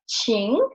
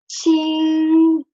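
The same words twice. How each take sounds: First: The pitch dips low and then rises. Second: The pitch stays high and level. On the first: It means to ask or to invite. "we will pronounce it in the third tone" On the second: It means bright or clean. "this ching will get the first tone"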